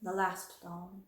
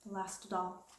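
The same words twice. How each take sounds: First: Mournful voice. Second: Sarah quietly repeating about her doll, mournful; mournful echo. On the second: Softer mournful repeat. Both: Acted. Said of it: "her little mournful voice had an odd sound".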